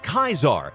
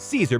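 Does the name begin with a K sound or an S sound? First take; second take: K sound; S sound. First: The name begins with a hard K sound. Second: The name begins with a soft S sound. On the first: This is the original ancient pronunciation. "Caesar was pronounced as Kaisar" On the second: This is the common modern pronunciation. "we'll pronounce it as Caesar because it is more common"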